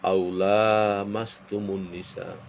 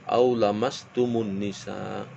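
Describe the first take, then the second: First: The vowel after the first L is long. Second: The vowel after the first L is short. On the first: "ada yang memanjangkan lamnya" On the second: "Ada yang membaca pendek"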